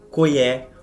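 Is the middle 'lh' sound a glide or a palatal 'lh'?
glide. The middle consonant becomes a plain 'i' glide.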